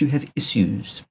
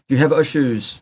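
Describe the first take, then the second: First: Issues is said in a posh British accent. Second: Issues is said in an ordinary, everyday accent.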